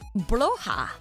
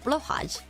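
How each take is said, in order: First: The word ends without a final J sound. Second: The word ends with a final J sound.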